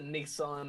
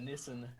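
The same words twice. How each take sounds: First: It is said with an American pronunciation. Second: It is said with a British pronunciation. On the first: "You pronounce it Nissan" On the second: "we call it a Nissan"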